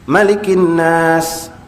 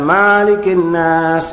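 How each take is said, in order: First: The first vowel of Malikin is kept short. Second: The first vowel of Malikin is drawn out long. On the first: The speaker calls it right. "cuma satu bacaan pendek" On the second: The speaker calls it wrong.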